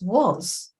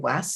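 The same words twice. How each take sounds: First: The vowel is said the usual irregular way. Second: The vowel is said as the letters suggest. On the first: The speaker calls it right. "it says was" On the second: The speaker calls it wrong. "this doesn't say was"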